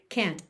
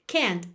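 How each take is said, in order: No difference in how they are said.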